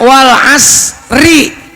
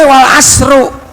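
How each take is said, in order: First: The word ends with an 'i' vowel. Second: The word ends with a 'u' vowel. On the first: The speaker calls it right. "dibacanya harus kasroh" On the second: The speaker calls it wrong. "nggak boleh"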